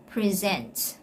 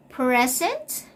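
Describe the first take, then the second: First: "present" stressed on SENT; the verb "present", pre-ZENT; stress on second syllable. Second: "Present" stressed on PRE, short e; the noun "Present", PREZ-ent; stress on first syllable. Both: Shown as a demonstration. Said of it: "take note of the stress".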